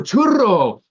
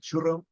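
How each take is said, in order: First: It is said with a native Spanish accent. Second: It is said with an American English accent.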